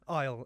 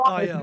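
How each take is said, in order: First: The name is said as one word, isle. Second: The name is spelled out as two letters. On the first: The speaker calls it right. "we say it's pronounced Isle" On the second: The speaker calls it wrong. "Did I say your band name correctly?"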